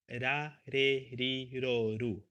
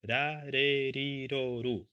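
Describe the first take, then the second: First: The R is a soft, light single tap. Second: The R is a soft, light single tap.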